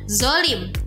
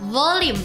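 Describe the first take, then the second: First: The first consonant is a light, plain z. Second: The first consonant is a heavy, emphatic z. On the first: The speaker calls it wrong. "dengan huruf zai" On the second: The speaker calls it right. "padahal dengan huruf vo"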